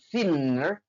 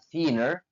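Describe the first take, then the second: First: The middle n sound is long and doubled. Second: The middle n sound is short and single. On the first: The speaker calls it wrong. "bukan thinner" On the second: The speaker calls it right. "dilafalkan cuma cuma satu N sehingga dibaca thinner"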